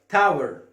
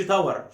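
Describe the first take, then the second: First: تاور as "tow-er", weak falling last syllable; louder, falling "TOW-er" for تاور; correct pronunciation. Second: تاور as "ta-war", with a full a in the last syllable; wrong pronunciation. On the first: (نطق تاور "تاوِر" بنهاية مخففة هابطة) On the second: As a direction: say تاور wrongly as Arabized "tawar". (نطق تاور خطأً بفتح الواو "تاوَر") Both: Shown as a demonstration. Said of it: "ما تقولش تاور".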